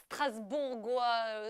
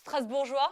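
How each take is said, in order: First: Strasbourgeois said slowly with a hard g, "stras-boor-gwa"; hesitant Strasbourgeois, g as in "go"; mispronounced Strasbourgeois. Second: Firm Strasbourgeois, g softened to "zh"; corrected Strasbourgeois. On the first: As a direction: draw out Strasbourgeois, hard g before the "wa". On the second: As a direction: say Strasbourgeois louder, ending in "zhwa". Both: Real, not acted. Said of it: "I've just been corrected".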